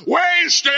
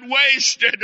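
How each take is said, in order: First: Heaving gasps, then high, loud wail; dramatised dying man's loud, drawn-out wail; anguished cry-out. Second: High wail, less piercing than a scream; dramatised tearful cry; acted sob. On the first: Retold or imitated. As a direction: cry it out to heaven in acted despair. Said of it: "and he cried out". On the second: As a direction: sob the word out in imitated despair. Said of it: "Then he sobbed and said".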